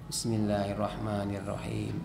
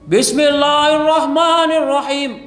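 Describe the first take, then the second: First: It is said softly, almost under the breath. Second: It is said very loudly.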